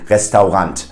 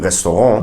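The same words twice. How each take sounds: First: It is pronounced fully the German way. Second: It is pronounced the native French way. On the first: "pronounce it in a German way" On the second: "In French, it would be restaurant"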